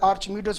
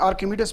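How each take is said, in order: First: The name is said with a 'ch' sound. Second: The name is said with a 'k' sound. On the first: "आर्चिमिडीज भी बोलते हैं मुख्तलिफ" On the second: "इसको English में आर्किमिडीज भी बोला जाता है"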